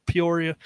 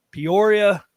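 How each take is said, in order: First: PEORIA with a restrained P; softened P in PEORIA. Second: PEORIA said louder, with a popping P; popped P in PEORIA. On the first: Shown as a demonstration. Podcaster retrying the town name to avoid plosives, PEORIA with softened P. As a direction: ease off the plosive at the start of "Peoria". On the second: Real, not acted. Podcaster naming the town into the mic, PEORIA with a popped P. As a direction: let the P of "Peoria" pop into the mic. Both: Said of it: "Uh, try not to p".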